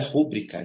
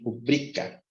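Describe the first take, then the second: First: The stress falls on the first syllable, ru. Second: The stress falls on the second syllable, bri. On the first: The speaker calls it wrong. "isso aqui está errado" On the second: The speaker calls it right. "A sílaba mais forte é o bri"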